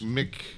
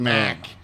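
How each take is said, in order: First: The syllable has a short, reduced vowel. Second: The syllable has a full, clear vowel. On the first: The speaker calls it right. "You still just Mick" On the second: The speaker calls it wrong. "Nobody goes Mac, even when it's spelled that way"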